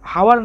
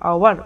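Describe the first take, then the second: First: The word begins with a breathy h sound. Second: The word begins directly with a vowel sound. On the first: The speaker calls it wrong. "হাওয়ার না" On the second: The speaker calls it right. "এইচের যে উচ্চারণটা এখানে কনসোনেন্টের মতো হচ্ছে না, ভাউলের মতো হচ্ছে"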